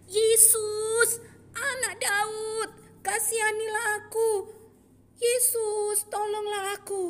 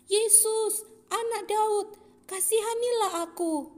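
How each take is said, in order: First: High, loud drawn-out shout for help; even louder cry. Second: High, loud crying out for mercy. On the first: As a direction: shout louder over the crowd. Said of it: "semakin kencang berteriak". (berteriak semakin kencang, tinggi dan keras) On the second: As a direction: call out to Jesus across the crowd. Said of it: "mulailah ia berseru dengan suara nyaring". (berseru nyaring, tinggi dan keras) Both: Acted.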